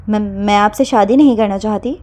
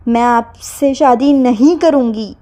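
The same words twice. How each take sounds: First: Stammering, barely holding steady; a touch of fear under the anger; faltering voice. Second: Slow and a little louder, acting brave; slow firm refusal with a slightly raised voice. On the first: Girl refusing the marriage, a mild falter. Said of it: "لیکن آواز پھر بھی لڑکھڑا رہی تھی". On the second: Girl calling after him, slowly and slightly raised. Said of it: "اپنی آواز کو ہلکا سا بلند کر کے". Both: A narrator's reading.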